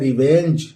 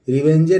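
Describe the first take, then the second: First: The word ends on the consonant sound. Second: The word ends with an extra vowel sound. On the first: The speaker calls it right. "ये है रिवेंज" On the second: The speaker calls it wrong. "रिवेंजे नहीं पढ़ेंगे"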